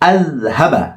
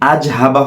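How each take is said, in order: First: The consonant after the first vowel is a th sound. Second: The consonant after the first vowel is a z sound. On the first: The speaker calls it right. "জিব্বাটি এখানে লাগবে" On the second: The speaker calls it wrong. "আজহাবা হবে না"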